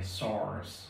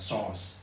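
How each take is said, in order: First: The word is said with a lengthened American vowel. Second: The word is said in a British accent. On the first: "người Mỹ thì hơi kéo dài cái chữ này" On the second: "người Anh người ta sẽ đọc giống như nhau luôn, đều đọc là sauce"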